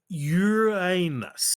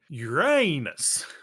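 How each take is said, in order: First: The stress is on the first syllable. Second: The stress is on the second syllable. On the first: "with a long U and stress on the first syllable" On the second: "with a long A"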